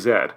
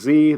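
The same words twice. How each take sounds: First: The letter is pronounced zed, ending in d. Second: The letter is pronounced zee, ending in a vowel. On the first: This is the pronunciation outside the United States. "they say Z" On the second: This is the United States pronunciation. "We say Z"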